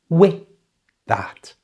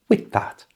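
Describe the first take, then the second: First: The phrase is spoken slowly. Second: The phrase is spoken at normal speed. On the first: "So slowly, it sounds like this" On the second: "And at normal speed"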